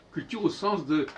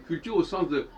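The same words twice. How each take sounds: The two takes are said the same way.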